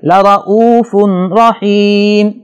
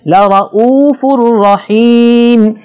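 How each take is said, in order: First: A clear n sound is heard before the r. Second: The n sound merges fully into the r. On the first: The speaker calls it wrong. "अगर कोई इस आवाज को पैदा करे ... तो ये गलती शुमार होगा" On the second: The speaker calls it right. "नून तनवीन की आवाज बिल्कुल नहीं आएगी"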